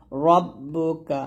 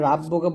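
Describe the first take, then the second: First: রব্বুকা with a thick, full র; heavy ra. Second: রাব্বুকা with a thin, light রা; wrong light ra. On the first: Teacher models রব্বুকা with a heavy র. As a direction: slowly say রব্বুকা, র heavy and doubled. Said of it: "রটা মোটা করে". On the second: Teacher shows the wrong রাব্বুকা, thin র. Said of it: "রাব্বুকা বলবেন না". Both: Shown as a demonstration.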